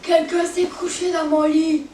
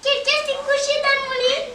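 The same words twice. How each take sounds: First: It is said in a big, deep voice. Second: It is said in a tiny, high voice.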